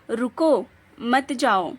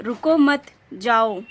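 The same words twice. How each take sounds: First: रुको, then a break, मत जाओ run together; pause after रुको. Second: रुको मत joined and louder, break, then जाओ; pause after मत. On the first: Teacher shows students the comma's effect, pausing after रुको. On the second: Teacher shows students the moved comma, pausing after रुको मत. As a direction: run रुको मत together, pause before जाओ. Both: Shown as a demonstration. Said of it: "विराम का स्थान बदलने".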